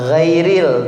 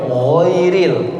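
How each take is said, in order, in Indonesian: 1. Dimulai dengan bunyi g tipis biasa. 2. Dimulai dengan bunyi gh tebal. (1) "jangan sekali-kali membaca ghin itu dengan baca ga ya" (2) "tebal suaranya"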